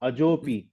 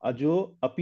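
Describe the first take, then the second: First: The two words are joined into one. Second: The two words are said separately. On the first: The speaker calls it right. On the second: The speaker calls it wrong.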